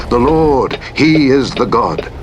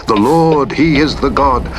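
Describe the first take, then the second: No difference in how they are said.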